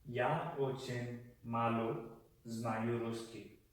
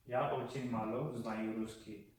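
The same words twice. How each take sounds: First: "Я очень мало ... знаю русский" slowed, with a pause midway; slow phrase demonstration. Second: Said in the usual way. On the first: Shown as a demonstration. Teacher showing how to say I speak very little Russian, slow and broken up. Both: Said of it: "you would say".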